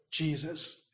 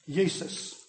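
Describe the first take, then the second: First: Said in the usual way. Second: Jesus said as YEE-sus with a Y sound; Latin pronunciation. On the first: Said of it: "which in English we say". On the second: Shown as a demonstration. Teaching the congregation how Latin says it, Jesus as YEE-sus. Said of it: "in Latin".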